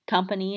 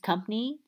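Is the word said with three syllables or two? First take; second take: three; two. First: The word is said with three syllables. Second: The word is said with two syllables. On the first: This is the standard pronunciation. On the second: This is the Baltimore pronunciation.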